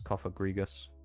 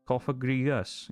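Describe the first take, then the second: First: It is said in his plain accent. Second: It is said in a Welsh accent.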